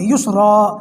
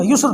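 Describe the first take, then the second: First: یسرا ending on a clear open a after the ر; correct reading. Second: یسر with the final alif sound cut off, ending on the ر; wrong reading. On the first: Teacher showing students the right pause: یسرا with the a kept. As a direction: let یسرا finish on a sounded zabar, not a bare ر. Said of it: "ایک زبر کی آواز باقی رہے گی". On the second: Teacher showing students the wrong way: یسر cut short. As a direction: clip یسر short, no tanween vowel after ر. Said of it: "ایسے نہیں پڑھیں گے". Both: Shown as a demonstration.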